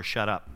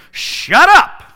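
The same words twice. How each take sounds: First: Mild quoted shut up. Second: High, loud yell; shouted shut up. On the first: Retold or imitated. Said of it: "never let me tell my brother". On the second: Acted. Preacher as Jesus silencing the demon, high loud yell. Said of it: "what Jesus is saying to the demon".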